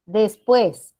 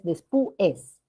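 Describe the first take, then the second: First: "Después" in two syllables, des-PUÉS; joined diphthong. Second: "después" split slowly as des-pu-es; separated vowels. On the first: Teacher giving the next example, "Después" joined as des-PUÉS. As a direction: glide u into e in "Después" as one beat. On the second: Teacher showing the wrong division, "después" broken as des-pu-es. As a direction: break "después" between u and e, slowly. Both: Shown as a demonstration. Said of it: "no es después".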